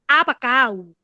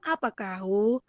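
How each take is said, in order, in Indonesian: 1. Vokalnya condong ke bunyi 'e'. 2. Vokalnya jelas, bunyi 'a' yang terbuka. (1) "condongnya ke e. ... kayak gitu"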